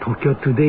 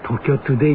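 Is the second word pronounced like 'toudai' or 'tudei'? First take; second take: tudei; tudei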